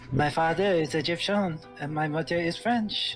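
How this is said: It is spoken with a French accent.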